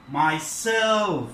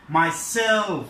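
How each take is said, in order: First: The stress falls on the second syllable. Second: The same.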